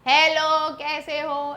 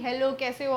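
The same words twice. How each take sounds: First: It is said much louder, nearly shouted. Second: It is said at a normal speaking volume.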